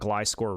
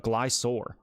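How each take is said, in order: First: The k sound in the middle is pronounced. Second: The k sound in the middle is dropped. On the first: The speaker calls it right. "I've actually only learned to start calling this Pokemon Gliscor recently" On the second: The speaker calls it wrong. "I did not pronounce the score part"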